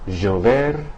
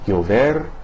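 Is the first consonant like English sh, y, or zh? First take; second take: zh; y. First: The first consonant sounds like s in pleasure. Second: The first consonant sounds like English y. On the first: "the S in the English word like pleasure" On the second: "similar to the Y in the English word yo-yo"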